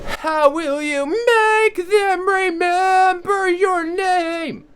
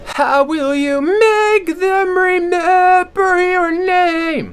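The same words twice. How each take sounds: First: The voice sounds supported, crisp and clear. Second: The voice sounds covered, dull and throaty. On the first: "supported ... It's a lot more crisp, it's a lot more clear" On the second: "with compensating on the throat ... it's kind of covered in its dull"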